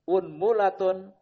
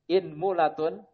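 First: The word begins with the vowel u. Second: The word begins with the vowel i. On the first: "di dhamma huruf hamzahnya" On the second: "Di kasroh hamzahnya"

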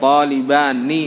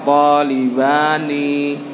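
First: The final vowel is said short. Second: The final vowel is drawn out long. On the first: The speaker calls it right. "ninya pendek" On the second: The speaker calls it wrong. "Jangan dibaca talibani"

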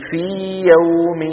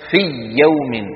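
First: The vowel of fi is lengthened before yawm. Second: The vowel of fi merges into the following y. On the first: The speaker calls it right. "شايفين المد؟ هذا هو الصواب" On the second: The speaker calls it wrong. "لو أدغمت هكذا سيكون نطق"

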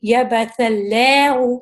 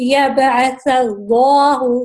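First: The L in Allah is thin, lips spread. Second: The L in Allah is heavy and full. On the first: The speaker calls it wrong. "میں غلط پڑھ رہی ہوں, کیونکہ میں اسپریڈ کر رہی ہوں لیپس ہمارے اور اوپر سے یہ تھن ہو رہا ہے" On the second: The speaker calls it right. "اس کو ہم موٹا کر کے پڑھیں گے. کس طرح؟"

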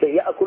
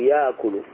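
First: A glottal stop is kept after the first vowel. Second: The glottal stop becomes a long vowel. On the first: This is the original form. "ولو قلت يأكل هذا الأصل" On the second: This is the lightened form. "تقلب هذه الهمزة الساكنة من جنس حركة حرف المضارعة فتقول يأكل"

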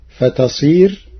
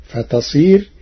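Both takes have the same delivery.

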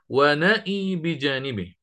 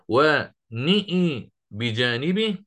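First: The vowel after n is an open 'a'. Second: The vowel after n leans toward 'e'. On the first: "ومرة أفتح النون" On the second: "مرة أميل النون"

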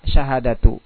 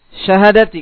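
First: The final vowel of the word is 'u'. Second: The final vowel of the word is 'i'. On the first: The word is a predicate of an omitted subject. "Dan boleh pula dibaca rofa" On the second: The word is an apposition to the preceding number. "kalau dibaca kasar berarti syahadati badal"

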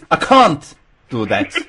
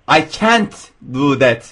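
First: It is spoken in a British English accent. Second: It is spoken in an American English accent. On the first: "bir İngiliz" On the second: "Amerikalı I can't do that derken"

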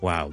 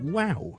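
First: It is said flat and cold, sounding sarcastic. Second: It is said high and excited, sounding sincere. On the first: The speaker is not really impressed. "如果我哋语气平淡少少hea 少少好冷淡呢" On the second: The speaker is truly impressed. "但系如果我真心咧，我就好有高音分"

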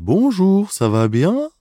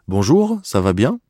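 First: It is spoken slowly, in a Swiss French accent. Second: It is spoken in a Parisian French accent. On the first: "А если из Швейцарии" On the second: "я сейчас скажу что-то с парижским, скажем, акцентом"

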